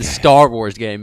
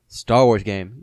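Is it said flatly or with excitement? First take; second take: excitement; flatly. First: It is said with lots of excitement. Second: It is said flatly, without excitement.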